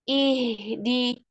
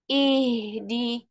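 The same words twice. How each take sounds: The two takes are said the same way.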